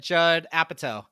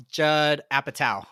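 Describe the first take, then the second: First: Apatow as "APP-a-toe"; "toe" ending. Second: Apatow slowly as "APP-a-tau"; "tow" rhyming with cow. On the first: Admitting the old habit, Apatow ending like "toe". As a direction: let Apatow end on a long "oh". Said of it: "'cause I always said". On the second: Quoting his own correction, Apatow ending like "cow". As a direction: finish Apatow on a drawn-out "ow". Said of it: "but he said, "Yeah, it's". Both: Shown as a demonstration.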